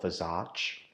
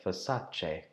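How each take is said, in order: First: Versace said as ver-SAR-chee; wrong way to say Versace. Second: Versace said slowly as ver-SAH-chay; Versace, slow and careful; right Versace. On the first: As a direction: Versace with an English R and ch. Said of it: "Not Versace". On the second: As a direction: model Italian Versace. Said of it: "but Versace". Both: Shown as a demonstration.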